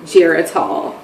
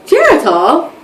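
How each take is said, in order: First: Low, softer, reluctant admission; retold sheepish confession; dreading reveal. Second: Higher, rising question; imitated friend, voice lifting at the end; friend's questioning echo. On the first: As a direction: let the name drop quietly after a wait. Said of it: "telling her so slow because I'm, like, dreading her". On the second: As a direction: repeat the name as a surprised question. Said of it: "She's like".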